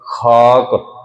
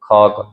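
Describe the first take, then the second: First: The word begins with a raspy throat fricative sound. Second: The word begins with a plain aspirated k sound. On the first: The speaker calls it right. "ਖੱਖੇ ਪੈਰ 'ਚ ਬਿੰਦੀ ... ਇਸ ਤਰ੍ਹਾਂ ਸ਼ਬਦ ਨੂੰ ਬੋਲਿਆ ਜਾਂਦਾ ਹੈ" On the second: The speaker calls it wrong. "ਆਪਾਂ ਤਾਂ ਸਾਧ ਖਾਕ ਹੀ ਖਾਕ ਬੋਲਦੇ ਆ"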